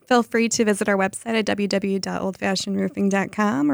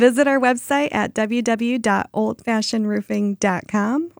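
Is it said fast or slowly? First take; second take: fast; slowly. First: It is said fast. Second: It is said slowly.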